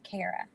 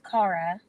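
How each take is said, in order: First: The first syllable sounds like care. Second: The first syllable sounds like car. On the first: The speaker calls it right. "don't think of car, think of the opposite. Think of care" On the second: The speaker calls it wrong. "it's not pronounced Cara"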